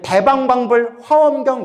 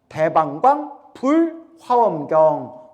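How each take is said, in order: First: The break comes after bul, before hwaeomgyeong. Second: The break comes after daebanggwang, before bul. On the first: The speaker calls it wrong. "우리 대방광불 화엄경 이러죠?" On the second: The speaker calls it right. "원래는 대방광 띄고 불 띄고 화엄경"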